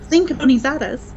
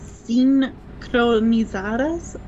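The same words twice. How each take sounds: First: The word is said at a fast pace. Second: The word is said at a slow pace. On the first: The speaker calls it right. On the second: The speaker calls it wrong.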